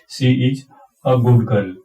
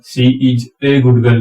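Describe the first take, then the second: First: The article 'a' is a short 'uh' sound. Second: The article 'a' is a full 'ay' sound. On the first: The speaker calls it right. "इसको बोले हम सी is अ good girl" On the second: The speaker calls it wrong. "इसको हम सी is ए good girl नहीं बोलेंगे"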